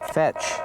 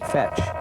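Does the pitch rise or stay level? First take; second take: rise; level. First: The pitch rises from low to high. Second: The pitch stays level, without rising.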